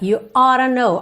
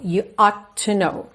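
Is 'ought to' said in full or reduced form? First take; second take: reduced; full. First: 'Ought to' is reduced to 'oughta'. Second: 'Ought to' is said as two full words. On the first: "normalmente a gente vai pronunciar ora" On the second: "ao invés de you ought to know"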